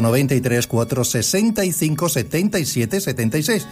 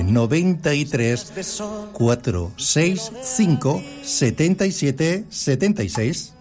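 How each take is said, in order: First: The number is said fast. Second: The number is said slowly.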